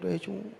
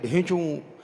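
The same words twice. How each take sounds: First: The bray is said softly. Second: The bray is said loudly.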